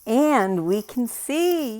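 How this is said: It is said in an excited tone.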